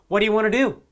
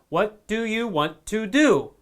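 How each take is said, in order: First: The words are reduced and run together. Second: Each word is pronounced fully and separately. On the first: The speaker calls it right. "But we almost never say that in real life. We say" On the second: The speaker calls it wrong. "That's how you'll learn it in a textbook or in a school"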